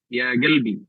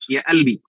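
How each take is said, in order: First: The word begins with a g sound. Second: The word begins with a glottal stop. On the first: "di Yaman misalnya qaf itu dibaca dengan ga" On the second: "di Mesir huruf qaf itu dibaca dengan hamzah"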